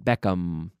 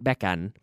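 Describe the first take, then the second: First: The name ends with a clear m sound. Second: The final m sound is not clearly pronounced. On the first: The speaker calls it right. "his name ends with an M and I get to pronounce it" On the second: The speaker calls it wrong. "Not Beckham"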